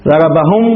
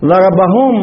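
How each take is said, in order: First: ضربهم cut off on a silent m, no vowel after it; pausal form with sukun. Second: ضربهم said as ضربهمُو, the mim voiced and ending in a long uu; lengthened pronoun vowel. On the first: Teacher showing the pausal form at a stop. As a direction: stop dead on the mim of ضربهم. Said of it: "يقف على الميم بالإسكان". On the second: Teacher showing students the added waw on ضربهم. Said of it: "ألحقنا بالضمير واو". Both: Shown as a demonstration.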